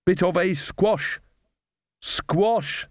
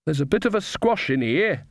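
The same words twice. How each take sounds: First: "squash" drawn out at a higher pitch; laboured repeat of joke. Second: Pun delivered with a slight lift; joke punchline. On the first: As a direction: hammer home the pun on "squash", slowly. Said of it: "in case anyone hadn't got it". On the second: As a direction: land the joke after the build-up. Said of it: "wait for it". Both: A narrator's reading.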